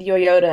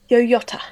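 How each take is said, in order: First: New Zealand accent, with a soft flapped middle consonant. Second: Posh English accent, with a crisp T sound. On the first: "because we don't really say tees" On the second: "like in England, some people very posh say"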